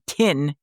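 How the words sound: The vowel sounds like the i in 'tin'. This is how New Zealanders say it. "They say tin in uh, New Zealand"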